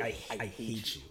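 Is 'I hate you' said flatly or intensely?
intensely. It is said intensely, with real feeling. The line feels real and demands a reaction. The speaker calls it right. "then how do I react?"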